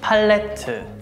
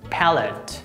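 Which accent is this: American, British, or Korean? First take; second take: Korean; American. First: It is said with Korean pronunciation. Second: It is said with American pronunciation. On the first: "Korean pronunciation" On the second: "American pronunciation"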